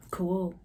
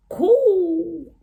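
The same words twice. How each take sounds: First: Said in the usual way. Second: High, loud, stretched-out "Cool"; exaggerated cool.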